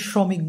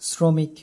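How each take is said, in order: First: The first consonant is an 'sh' sound. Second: The first consonant is a plain 's' sound. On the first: The speaker calls it wrong. "আমরা কিন্তু শ্রমিককে শ্রমিক বলি না" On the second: The speaker calls it right. "তালব্য শ বর্ণের দন্ত্য স উচ্চারণ"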